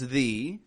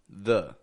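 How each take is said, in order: First: The vowel is a full, longer vowel. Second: The vowel is a quick, quiet schwa. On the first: The next word begins with a vowel. "Sometimes it's the" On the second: The next word begins with a consonant. "it's going to be a schwa"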